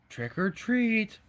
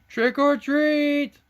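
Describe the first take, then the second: First: It is said very softly. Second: It is said a little louder.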